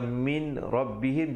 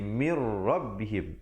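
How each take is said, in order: First: The n is pronounced separately before the r. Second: The n merges into the r without nasalization. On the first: This is the underlying form before the rule applies. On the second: This is how the rule says it should be recited. "masuk terus di atas ra itu"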